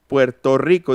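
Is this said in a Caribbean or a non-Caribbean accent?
non-Caribbean. It is said in a non-Caribbean Spanish accent. "en el Caribe no dicen este Puerto Rico"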